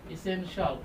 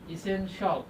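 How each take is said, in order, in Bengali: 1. শেষাংশটি 'shal' হিসেবে উচ্চারিত হয়। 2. শেষাংশটি 'shal' হিসেবে উচ্চারিত হয়।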